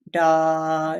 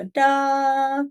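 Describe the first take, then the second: First: Sustained sung "da" at speaking pitch; base pitch note. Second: High sustained sung "da"; raised pitch. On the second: Teacher demonstrates going up in pitch, higher note. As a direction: hold "da" on a higher note, same volume. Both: Shown as a demonstration. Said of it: "I can go up in pitch".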